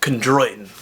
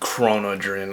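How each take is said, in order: First: It is said like 'kon-droy-tin'. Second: It is said like 'kron-o-drin'. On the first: The speaker calls it right. "It's chondroitin" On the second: The speaker calls it wrong. "not chronodrin"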